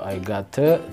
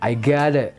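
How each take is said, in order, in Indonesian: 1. Bunyi t di 'got' adalah bunyi t yang jelas. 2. Bunyi t di 'got' terdengar seperti d. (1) "Harusnya bukan I gota atau I got it" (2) "kalau American style biasanya bunyi te terkadang uh, terdengar de"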